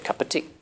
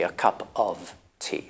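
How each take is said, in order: First: The word 'of' is reduced to a weak form. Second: The word 'of' is said in its full form. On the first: The speaker calls it right. "you say cup of tea" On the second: The speaker calls it wrong. "you don't normally say a cup of tea"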